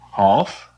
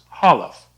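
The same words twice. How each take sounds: First: The L runs straight into the F. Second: A short vowel sounds between the L and F.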